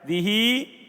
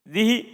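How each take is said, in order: First: The final i vowel is drawn out long. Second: The final i vowel is short. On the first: "Dibaca isba' dikasih penuh harokatnya" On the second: "dengan kasrah dihi"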